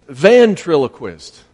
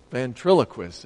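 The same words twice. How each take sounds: First: "Ventriloquist" said slowly and loudly, first syllable "ven" stressed; slow, clear ventriloquist. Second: Said in the usual way. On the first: Shown as a demonstration. Helping the preacher with a hard word, slow and loud. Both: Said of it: "I need the first syllable there".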